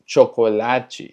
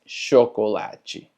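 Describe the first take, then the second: First: Chocolate wrongly started with tch; slow cho-ko-la-chi, chocolate with hard ch. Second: Chocolate as sho-ko-la-chi. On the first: Teacher shows the wrong chocolate, hard tch start. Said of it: "no es chocolate". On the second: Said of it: "Suena más como una S H". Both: Shown as a demonstration.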